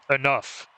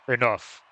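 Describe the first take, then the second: First: It is said in a normal voice. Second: It is said in a deep voice.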